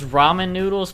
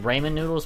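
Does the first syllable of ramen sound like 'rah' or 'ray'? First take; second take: rah; ray. First: The first syllable sounds like 'rah'. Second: The first syllable sounds like 'ray'. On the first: "if you think it's ramen noodles, put R-A" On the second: "If you think it's ramen noodles, put R-A-Y"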